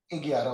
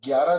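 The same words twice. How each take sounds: First: ग्यारह said as "एग्यारह" with a vowel before it, Bihari style; in a Bihari accent, say ग्यारह as एग्यारह; Bihari pronunciation. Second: Said in the usual way. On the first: Shown as a demonstration. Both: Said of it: "कोई बिहारी बोलता तो".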